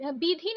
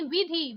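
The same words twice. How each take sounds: First: विधि starting with b; hard b opening विधि; wrong pronunciation. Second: विधि starting with v; correct pronunciation. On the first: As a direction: say विधि as "bidhi". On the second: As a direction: say विधि as "vidhi". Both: Shown as a demonstration. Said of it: "विधि नहीं".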